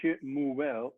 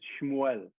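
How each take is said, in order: First: The name is said slowly with every vowel. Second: The name is said quickly with the vowel dropped. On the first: "is how you pronounce it" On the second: "when you speak it quickly"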